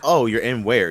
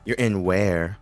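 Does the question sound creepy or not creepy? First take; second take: not creepy; creepy. First: The question sounds casual, not creepy. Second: The question sounds a bit creepy.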